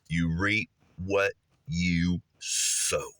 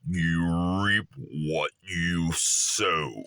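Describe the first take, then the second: First: It is said in a plain voice. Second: It is said in a mystical ancient voice.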